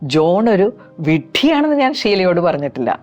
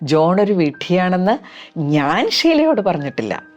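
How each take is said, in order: First: The stress falls on the word വിഡ്ഢിയാണെന്ന്. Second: The stress falls on the word ഞാൻ. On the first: Other insults were used, but not that word. "വിഡ്ഢിയാണെന്നുള്ള ഭാഗത്തിന് ഒരു stress കൊടുത്ത് പറയാം" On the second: Others may have said it, but not the speaker. "വേറെ ഒരുപാട് പേര് പറഞ്ഞു കാണും, പക്ഷെ ഞാൻ പറഞ്ഞിട്ടില്ല"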